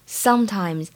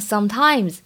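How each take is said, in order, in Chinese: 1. 重音在第一个音节。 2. 重音在第二个音节。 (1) "这个重音呢是应该放在第一个音节" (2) "不要读成sometimes"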